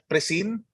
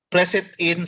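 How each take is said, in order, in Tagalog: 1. Pinagdikit na binibigkas ang tatlong salita bilang isa. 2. Hiwalay na binibigkas ang tatlong salita.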